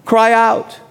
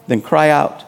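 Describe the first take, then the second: First: "Cry out" pushed higher as a call; urging cry out. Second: Said in the usual way. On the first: Shown as a demonstration. Pastor urging the congregation, a firmer "Cry out". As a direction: urge them with "Cry out".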